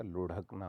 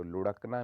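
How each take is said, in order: First: लुढ़कना with breathy rha; aspirated flap. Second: लुढ़कना said as lurakna; no aspiration. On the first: Teacher corrects it, लुढ़कना with breathy ढ़. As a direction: puff air on the ढ़ of लुढ़कना. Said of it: "ढ होती है". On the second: Teacher shows a frequent error, लुढ़कना with ड़. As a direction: drop the breath from ढ़ in लुढ़कना. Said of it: "नहीं होता". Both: Shown as a demonstration.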